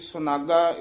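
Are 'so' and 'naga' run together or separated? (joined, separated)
joined. The two parts are run together as one word. "ए सुनागा इकट्ठा पादशेद पोथियां ते लिखा होया है"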